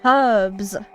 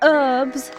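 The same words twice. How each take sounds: First: The word begins with an audible H sound. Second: The word begins without an H sound. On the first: The speaker calls it right. "Where you pronounce the H" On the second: The speaker calls it wrong. "Not herbs"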